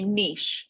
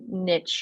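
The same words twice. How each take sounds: First: The word is said with a French-style pronunciation. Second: The word is said with an American-style pronunciation. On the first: "I say niche" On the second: "I don't say niche or whatever the other way"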